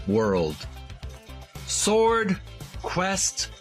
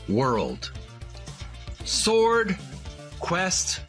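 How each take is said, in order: Both takes have the same delivery.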